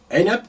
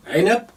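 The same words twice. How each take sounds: The two takes are said the same way.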